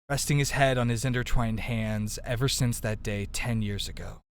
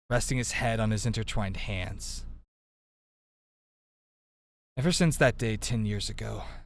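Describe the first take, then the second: First: It runs on with no break after hands. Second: There is a sentence break after hands.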